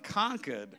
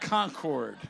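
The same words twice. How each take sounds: First: It is said the local Massachusetts way. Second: It is said a non-local, outsider way. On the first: The speaker is really from Massachusetts. The speaker calls it right. "If you were from Concord, Massachusetts, you'd be saying Concord" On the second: The speaker is not really from Massachusetts. The speaker calls it wrong. "not Concord"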